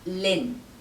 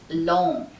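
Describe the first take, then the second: First: The syllable has a short 'i' vowel. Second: The syllable has an open 'o' vowel. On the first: The speaker calls it wrong. "it's not pronounced lin" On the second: The speaker calls it right. "It's long, long, and the N is not fully pronounced"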